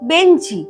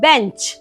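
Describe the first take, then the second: First: An extra vowel is added after the cluster. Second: The word ends on the consonant cluster. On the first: "আমরা বলি কি বেঞ্চি" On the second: "ওয়ার্ডটা ছিল বেঞ্চ"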